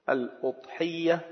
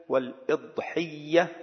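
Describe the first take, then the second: First: الأضحية said softly with "u", al-udhiyya; damma on the hamza. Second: والإضحية slow and soft with "i", wal-idhiyya; kasra on the hamza. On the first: Teacher repeating the variants for learners, الأضحية with damma, "al-udhiyya". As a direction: open الأضحية on u: "al-UD-hiyya". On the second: Teacher repeating the variants for learners, والإضحية with kasra, "wal-idhiyya". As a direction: open والإضحية on i, drawn out: "wal-ID-hiyya". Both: Shown as a demonstration. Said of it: "بضم الهمزة وكسرها".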